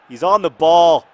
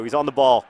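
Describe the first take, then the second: First: Louder and slower, building commentator excitement; rising match excitement, a lot louder; excited. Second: Said in the usual way. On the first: Real, not acted. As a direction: call it out as the chance opens. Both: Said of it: "so excited".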